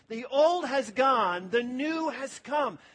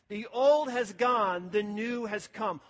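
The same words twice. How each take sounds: First: It is said with strong, heartfelt conviction. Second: It is said in a plain, ordinary way.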